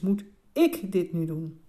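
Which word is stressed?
ik. The stress falls on the word "ik". Do I have to do it myself, or can someone else? "Dus moet jij het zelf doen?"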